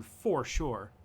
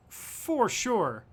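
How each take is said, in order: First: Said in the usual way. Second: "For sure" jumped much higher in a put-on voice; playful high-pitched "For sure"; mock high voice. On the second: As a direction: echo yourself in a silly high voice. Repeats "for sure" in new voice.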